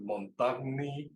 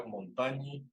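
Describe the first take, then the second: First: "Montagni" with separate g and n, slowly; Spanish-style reading. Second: "Montañi" with gn as ñ; correct Latin pronunciation. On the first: Teacher reading it as in Spanish, Spanish-style pronunciation. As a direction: say "Montagni" as mon-TAG-ni. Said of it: "que diría uno si lo lee en español". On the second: Teacher showing how it's really pronounced, correct pronunciation. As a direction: say "Montañi" as mon-TA-nyi. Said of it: "realmente se pronuncia". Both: Shown as a demonstration.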